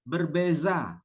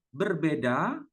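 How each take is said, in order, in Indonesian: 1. Konsonan di tengah itu bunyi 'z'. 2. Konsonan di tengah itu bunyi 'd'. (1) "di Melayu Johor menyebutnya berbeza, pakai Z, bukan pakai D" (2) "Kalau kita menyebutnya berbeda"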